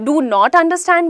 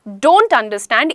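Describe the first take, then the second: First: Do not is said as two separate words. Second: Do not is joined into one word, don't. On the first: "डू नॉट understand भी बिल्कुल सही है" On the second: "इसी का short form हो जाता है"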